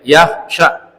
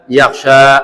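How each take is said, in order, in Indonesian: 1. Vokal akhir yaksha pendek. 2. Vokal akhir yaksha panjang. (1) "Jangan dibaca panjang, jangan, tapi pendek" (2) "Jangan dibaca"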